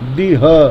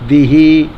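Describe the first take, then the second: First: The word ends without an added vowel. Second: The word ends with an added 'ee' vowel. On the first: The speaker calls it right. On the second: The speaker calls it wrong.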